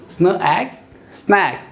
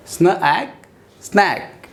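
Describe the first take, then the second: No difference in how they are said.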